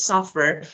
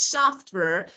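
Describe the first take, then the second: First: It is said quickly with the t dropped. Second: It is said carefully with the t pronounced.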